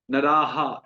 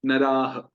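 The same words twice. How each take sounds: First: नराहा ending in a full long "haa"; wrong visarga. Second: नराह ending in a short "ha"; correct visarga. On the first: Teacher showing the wrong, long ending. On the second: Teacher giving the right short ending. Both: Shown as a demonstration. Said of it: "ऐसे नहीं".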